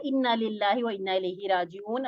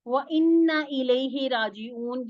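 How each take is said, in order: First: Said in the usual way. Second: Slow melodic recitation; Quran recitation. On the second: Acted. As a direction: chant इन्ना slowly and drawn out. Teacher recites verse fragment.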